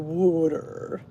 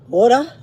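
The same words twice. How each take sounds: First: It is said in a Philadelphia accent. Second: It is said in a Staten Island accent.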